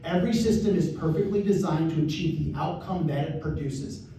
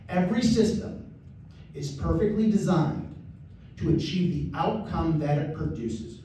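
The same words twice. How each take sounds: First: It is said at normal conversational speed. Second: It is said a little more slowly.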